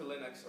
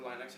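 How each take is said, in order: First: Short "ih" in the first syllable of "Linux". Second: Long "eye" sound in the first syllable of "Linux". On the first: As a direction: say "Linux" as LIN-uks. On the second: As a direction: say "Linux" as LINE-uks. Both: Shown as a demonstration. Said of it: "however you want to pronounce it".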